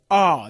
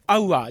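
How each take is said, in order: First: Hour as one long "aa"; merged long vowel. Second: Hour said as "a-u-a"; katakana diphthong. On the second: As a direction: sound out "hour" in separate vowels. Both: Shown as a demonstration. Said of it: "じゃなくて".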